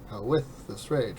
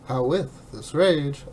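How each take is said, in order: First: The stress falls on the word with. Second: The stress falls on the word how. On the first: The speaker calls it wrong. "I went ... which is incorrect" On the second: The speaker calls it right. "instead of going like"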